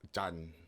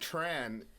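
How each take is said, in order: First: The name is said with a Vietnamese pronunciation. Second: The name is said with an English pronunciation. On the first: The speaker calls it right. "what's the real pronunciation?" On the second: The speaker calls it wrong. "saying Tran is even saying it the wrong way. That's the it's just the English bastardization"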